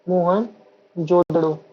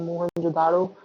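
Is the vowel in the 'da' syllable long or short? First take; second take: short; long. First: The 'da' syllable has a short vowel. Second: The 'da' syllable has a long vowel. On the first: The speaker calls it right. "इसका सही उच्चारण है" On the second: The speaker calls it wrong. "लोग बोलते हैं"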